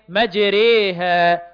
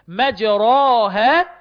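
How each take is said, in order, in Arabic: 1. الصوت الطويل بين الألف والياء. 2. الصوت الطويل ألف خالصة مفتوحة. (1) "ما بين الالف والياء" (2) "ما بنقولش مجراها"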